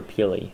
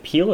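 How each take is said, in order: First: "Peely" ending in an ee sound, PEE-lee; Peely in two syllables. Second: "Peele" said as one syllable, like "peel". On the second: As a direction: say "Peele" with a silent final E. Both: Shown as a demonstration. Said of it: "is it Peele or Peely".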